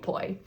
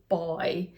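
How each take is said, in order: First: The name begins with a voiceless p sound. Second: The name begins with a voiced b sound. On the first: This is how friends abroad say it. "you just call me poi" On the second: This is how people in the home country say it. "The correct pronunciation is actually boy"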